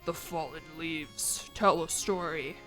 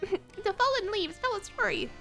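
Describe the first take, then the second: First: It is said in a dramatic narrator voice. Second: It is said in a casual YouTuber voice. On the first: "the Elden Ring intro guy who's like" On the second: "in my stupid YouTube voice"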